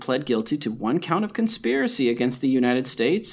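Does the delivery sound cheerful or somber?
cheerful. The delivery sounds cheerful and upbeat. The speaker calls it wrong. "You're being cheerful about this"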